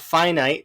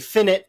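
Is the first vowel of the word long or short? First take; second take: long; short. First: The first vowel is long, as in 'fine'. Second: The first vowel is short, as in 'infinite'. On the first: "and not finite" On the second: "the reason why I say finite"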